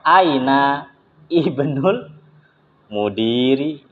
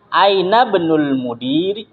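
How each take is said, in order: First: The glottal stop before 'ibnu' is pronounced. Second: The glottal stop is dropped and the words run together. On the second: "Jadi kalau disambung dia nggak dibaca"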